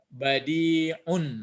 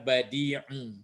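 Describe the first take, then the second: First: The word ends with an n sound. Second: The word ends on a vowel, without n. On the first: The word stands alone. The speaker calls it wrong. "nggak boleh dibaca badi'un" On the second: The word is joined to the next word. The speaker calls it right. "tapi yang ada badi'u"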